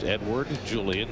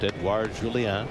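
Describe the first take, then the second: First: The name is said with anglicized sounds. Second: The name is said with French sounds. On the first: This is the pronunciation he prefers. The speaker calls it right. "wants his name pronounced" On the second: This is the pronunciation he does not want. The speaker calls it wrong.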